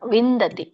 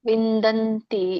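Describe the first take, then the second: First: No n sound comes before the final ti. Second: An extra n sound comes before the final ti. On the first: The speaker calls it right. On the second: The speaker calls it wrong. "ವಿಂದಂತಿ ಇಲ್ಲ"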